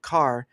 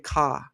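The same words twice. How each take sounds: First: It is said with an American accent. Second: It is said with a British accent.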